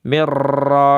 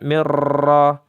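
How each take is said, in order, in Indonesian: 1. R digetarkan kuat, banyak pantulan. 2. R digetarkan kuat, banyak pantulan.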